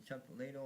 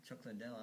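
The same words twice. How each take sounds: First: "Liddell" said LAY-dul, stress first; alternative pronunciation. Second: "Liddell" said luh-DELL, stress last; preferred pronunciation. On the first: Offering another way to say the fighter's name, "Liddell" as LAY-dul. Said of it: "I'm not sure how it's pronounced". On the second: Giving the favored way to say the fighter's name, "Liddell" as luh-DELL. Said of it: "I like Chuck Liddell". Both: Shown as a demonstration.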